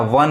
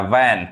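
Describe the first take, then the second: First: वन with a short 'uh'; wrong vowel demo. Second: वैन with an open 'ae'; taught vowel. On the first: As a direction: say वन as 'vun'. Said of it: "वन नहीं पढ़ेंगे". (वन में छोटा 'अ' बोलें) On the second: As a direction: say वैन as 'van'. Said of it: "ए sound पढ़ता है". (वैन में 'ऐ' की आवाज़ बोलें) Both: Shown as a demonstration.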